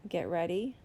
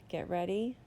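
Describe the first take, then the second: Both takes have the same delivery.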